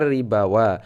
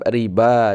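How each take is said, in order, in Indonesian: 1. Kata itu berakhir dengan tambahan bunyi 'wa'. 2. Kata itu berakhir dengan bunyi 'ba' saja. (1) "bukan ribawa" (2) "tetap riba dibaca ya"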